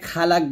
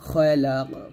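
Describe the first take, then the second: First: The final q stops flat without a bounce. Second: The final q ends with an echoing bounce. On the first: The speaker calls it wrong. "এখানে খালাক বলবেন না" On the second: The speaker calls it right. "কফটা কলকলা করতে হবে"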